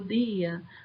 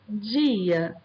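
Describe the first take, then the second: First: The word is said in a Paraíba accent. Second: The word is said in a Carioca accent. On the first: "no sotaque paraibano" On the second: "no sotaque carioca"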